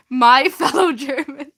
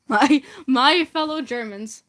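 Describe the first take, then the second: First: Cracking up mid line; laughing through it. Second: Said in the usual way. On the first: Acted. Starting the dictator's speech, breaking into laughter. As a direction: try to stay serious but laugh.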